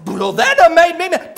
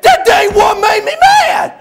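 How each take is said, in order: First: Said in the usual way. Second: Hammed-up tongue-tied roar; Buddy. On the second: Buddy corrects the preacher, bellowing in worked-up rage. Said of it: "when he gets real worked up".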